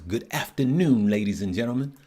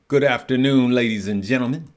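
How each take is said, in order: First: Said in the usual way. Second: Grand, a touch louder welcome to the crowd; announcer voice. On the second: Pretend. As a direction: boom it out like a ringside announcer. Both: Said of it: "Sound like an announcer".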